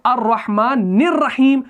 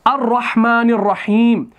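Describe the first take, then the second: First: अर्रहमानिर्रहीम said with the नून flowing straight into the रॉ; drawn-out linked tajweed reading; joined recitation. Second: अर्रहमानिर्रहीम begun fresh, the opening hamza अ clearly voiced; slow recitation opening on a sounded hamza; recited from the start. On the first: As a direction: recite it slowly, linking नून to रॉ with no stop. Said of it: "इस नून को हम रॉ के साथ मिलाते हैं". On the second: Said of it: "अगर हम अर्रहमान से शुरू करेंगे". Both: Shown as a demonstration.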